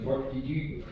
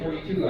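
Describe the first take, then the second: First: It is said with a put-on Norwegian accent. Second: It is said in the speaker's normal accent. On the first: "I hear Ole going forty-two" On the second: "whenever I say forty-two"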